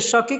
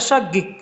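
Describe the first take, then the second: First: The middle consonant is a k sound. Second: The middle consonant is a g sound. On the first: This is how the word is written. "शकीक हमने लिखा है" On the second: This is how the word is actually said. "लेकिन होता है शगिक"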